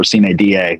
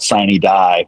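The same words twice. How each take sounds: First: It is said with a classical Latin pronunciation. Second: It is said with an English-style pronunciation. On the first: The speaker calls it right. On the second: The speaker calls it wrong.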